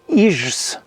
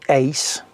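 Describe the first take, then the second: First: The 'ij' vowel is not pronounced as 'ei'. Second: The 'ij' vowel is pronounced as the 'ei' diphthong. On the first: The speaker calls it wrong. "on ne dit pas ijs" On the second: The speaker calls it right. "on dit ice"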